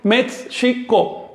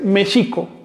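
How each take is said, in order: First: A 'ts' sound comes before the 'sh' sound. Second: Only the 'sh' sound is heard, without 'ts'. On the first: The speaker calls it wrong. "no puedo decir México. Eso es una incorrección" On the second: The speaker calls it right. "tengo que decir México"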